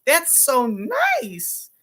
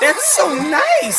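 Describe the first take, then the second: First: High, very slow mock gush. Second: High, slow, loud mock gush. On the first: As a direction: stretch it out high like a fake compliment. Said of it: "When someone's voice goes up". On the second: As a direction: mimic her voice jumping way up. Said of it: "See how her voice went up?".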